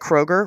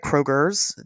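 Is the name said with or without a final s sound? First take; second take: without; with. First: The name ends without an added s sound. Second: The name ends with an added s sound.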